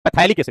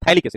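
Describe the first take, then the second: First: The word begins with a p sound. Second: The word begins with a th sound. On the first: The speaker calls it wrong. "पैथैलिक acid नहीं, पैथैलिक नहीं बोलो" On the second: The speaker calls it right. "पी silent होता है"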